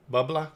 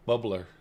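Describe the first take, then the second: First: BUBBLER ending in an open ah, rising; higher, R-less Maine accent on Bubbler; attempted Maine accent. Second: Said in the usual way. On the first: Shown as a demonstration. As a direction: try Bubbler like a Mainer, R dropped, questioning. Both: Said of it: "how can I do a Maine accent?".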